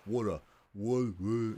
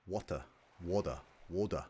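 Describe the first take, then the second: First: Water pushed from the throat in an Australian accent, cut off; straining to say water the Australian way; forced Australian accent. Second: Trying out an Australian water, said wɔdə; a viewer practising the Australian way of saying water; Australian accent attempt. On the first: Forced, throaty Australian water. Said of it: "you can kinda hear it is in my throat". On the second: Water in an Australian accent. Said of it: "I wanna be like". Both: Shown as a demonstration.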